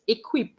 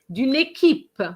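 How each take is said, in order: First: It is said like the English word equip. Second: It is said with French vowels as équipe. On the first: The speaker calls it wrong. "not equip" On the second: The speaker calls it right. "équipe as opposed to equip"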